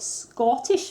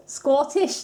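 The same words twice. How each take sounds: First: Said in the usual way. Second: One word in a hammed-up Scottish accent, higher and louder; bad Scottish accent. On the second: To her viewers, a playful bad Scottish accent. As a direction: throw in a jokey Scottish accent on Scottish, rising. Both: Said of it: "that's my Scottish impression".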